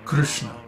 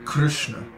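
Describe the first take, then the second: The two takes are said the same way.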